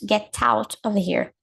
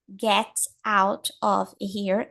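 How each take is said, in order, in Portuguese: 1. As palavras se juntam na fala conectada. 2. Cada palavra é dita separadamente e com clareza. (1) "Meio natural" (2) "palavra por palavra"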